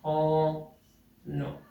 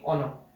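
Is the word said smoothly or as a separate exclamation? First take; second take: exclamation; smoothly. First: It sounds like two exclamation words, oh no. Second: It is said smoothly as one single word. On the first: The speaker calls it wrong. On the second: The speaker calls it right.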